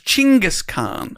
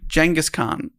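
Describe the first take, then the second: First: The name is said in its Mongolian form. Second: The name is said in its Western form. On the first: This is how people in Mongolia say it. "he's known in Mongolia as Chinggis Khan" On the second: This is how European and American historians say it. "They call him Genghis Khan. These are European and American historians"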